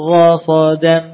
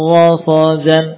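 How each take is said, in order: The two takes are said the same way.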